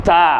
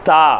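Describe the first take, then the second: Both takes have the same delivery.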